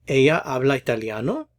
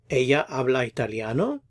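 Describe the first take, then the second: No difference in how they are said.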